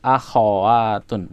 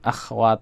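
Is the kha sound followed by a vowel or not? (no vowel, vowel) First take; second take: vowel; no vowel. First: The kha sound is followed by a vowel. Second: The kha sound has no vowel after it. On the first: The speaker calls it right. "tapi akhwatun gitu ya. Diperjelas kha-nya hidup" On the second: The speaker calls it wrong. "Akhwat bukan gitu"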